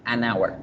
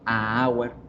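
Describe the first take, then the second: First: An n sound links the article to 'hour'. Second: The article is a bare vowel before 'hour'. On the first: The speaker calls it right. "Se debe pronunciar an hour" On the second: The speaker calls it wrong. "No suena bonito"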